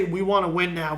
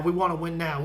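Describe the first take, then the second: First: Lowered voice, parroting a GM's promise; mock Brody boasting. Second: Lower, softer repeat of the boast; mock Brody echo. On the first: A fan mimics Brody promising to win now, low mock boast. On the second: A fan repeats Brody's promise mockingly, lower and softer. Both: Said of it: "Why would Brody say".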